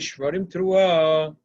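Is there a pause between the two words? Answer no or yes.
no. The two words run together without a break. The two calls are treated as one unit. The speaker calls it right. "the makri says it together"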